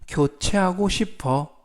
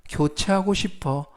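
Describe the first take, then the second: No difference in how they are said.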